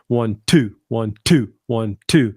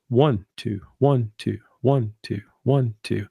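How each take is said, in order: First: The stress falls on each two. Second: The stress falls on each one.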